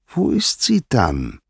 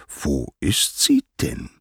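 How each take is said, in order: First: Slow, high-pitched pressing; drawn-out, higher insistent asking; insistent question. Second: Slow, measured asking at normal pitch; deliberate, restrained inquiry; probing question. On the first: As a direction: press for the answer, voice raised in pitch. Poseidon repeats question, insisting. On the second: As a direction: ask it slowly, word by word. Poseidon asks after missing wife. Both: A narrator's reading.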